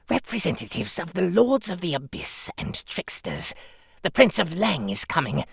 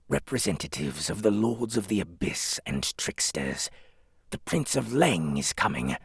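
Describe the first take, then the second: First: The voice sounds crazed, like a fanatic cultist. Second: The voice sounds fairly calm and controlled. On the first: "Priest should sound, uh, crazy. Cthulhu cultist" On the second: "I'm gonna just try something random"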